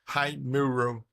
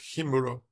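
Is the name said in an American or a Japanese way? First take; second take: American; Japanese. First: It is said the way an American would. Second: It is said the Japanese way. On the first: "if you are an American, you would read Hi- Haimuro" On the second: "instead of Himuro"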